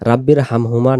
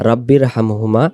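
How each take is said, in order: Both takes have the same delivery.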